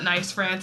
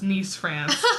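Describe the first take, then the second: First: The city name sounds like the English word nice. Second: The city name sounds like the English word niece. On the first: The speaker calls it wrong. "No, it's not nice France" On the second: The speaker calls it right. "it's Nice, France"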